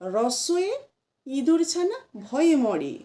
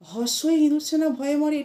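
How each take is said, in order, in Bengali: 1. প্রথম শব্দটি r ধ্বনি দিয়ে শুরু। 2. প্রথম শব্দটি h ধ্বনি দিয়ে শুরু।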